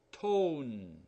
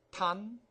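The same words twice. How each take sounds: First: "tone" with a long O like the letter name. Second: "Ton" with a short u-like vowel. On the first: Teacher showing "tone" takes a long sound. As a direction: round out the O in "tone". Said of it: "long sound". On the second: Teacher reading the word without the E. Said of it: "You gotta read this one, long sound". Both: Shown as a demonstration.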